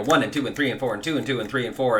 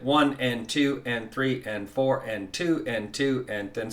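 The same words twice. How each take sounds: First: Fast, running count; rushed count. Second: Even count along the beat; steady counting. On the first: Teacher showing a count that is too fast. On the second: Teacher counting the beat for students. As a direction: count evenly to the downbeat. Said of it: "you can just start counting along with it". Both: Shown as a demonstration.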